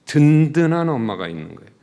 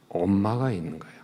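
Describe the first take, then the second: First: 든든한 said loud and rising; stress on 든든한. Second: Said in the usual way. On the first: Shown as a demonstration. Preacher stressing 든든한 to the congregation. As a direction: punch 든든한 to build the point.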